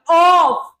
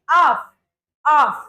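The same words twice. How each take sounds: First: "off" with a long, rounded aw vowel; wrong "off". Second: "off" with a short, open ah vowel; correct "off". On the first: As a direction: say "off" stretched out as "awf". (off को गलत, लंबे ऑ के साथ) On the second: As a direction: teach "off" as a short "ahf". (off को छोटे, खुले आ के साथ) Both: Shown as a demonstration. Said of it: "It's a wrong pronunciation".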